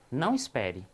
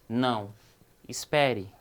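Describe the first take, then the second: First: There is no pause after the first word. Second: There is a pause after the first word. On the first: It is an order not to wait. "no segundo eu estou dando uma ordem para não esperar" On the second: It is an order to wait. "a vírgula pode ser uma pausa ou não"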